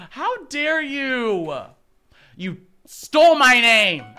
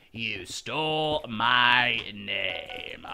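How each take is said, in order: First: Loud playful accusation; mock outrage. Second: Slow, lower mock-sinister voice; slow mock menace. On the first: Accusing a teammate of stealing her name, loud mock outrage. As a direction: accuse him in fake fury. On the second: Repeating the accusation to a teammate, slow mock menace. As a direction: draw it out like a villain.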